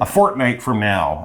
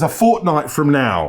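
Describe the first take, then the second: First: It is said in an American accent. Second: It is said in a British accent. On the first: "If you really say fortnight in an American accent, it's kind of weird" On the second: "That's my British accent"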